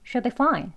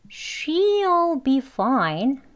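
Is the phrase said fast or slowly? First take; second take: fast; slowly. First: It is said quickly with she'll clipped short. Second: It is said slowly with a clear she'll. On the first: The speaker is not emphasizing it. "아주 짧게 발음합니다" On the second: The speaker is emphasizing it. "강조할 때는 천천히"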